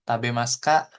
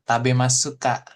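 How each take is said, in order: First: The u vowel after s is dropped. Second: The u vowel after s is clearly pronounced. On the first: "Nah ini cukup" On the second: "Kan harusnya"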